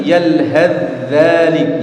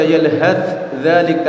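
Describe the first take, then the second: First: Yalhadz dzalik slow, first dz merged into the second; drawn-out yalhadz dzalik, one joined dz; correct merged reading. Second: Yalhadz dzalik with the dz and dz both sounded; wrong reading. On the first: Teacher models the correct recitation slowly. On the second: Teacher shows the forbidden pronunciation to students. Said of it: "tidak boleh antum baca". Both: Shown as a demonstration.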